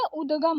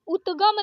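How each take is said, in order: First: उद्गम with voiced d, udgam; correct द. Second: उद्गम said as utgam; voiceless t in उद्गम; wrong त for द. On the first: Teacher correcting it, उद्गम as udgam. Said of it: "उद्गम होता है". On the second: Teacher showing the mistake, उद्गम as utgam. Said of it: "उद्गम नहीं होता है". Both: Shown as a demonstration.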